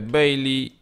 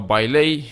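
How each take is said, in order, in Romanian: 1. Numele este rostit cu pronunție engleză. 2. Numele este rostit cu pronunție în stil românesc.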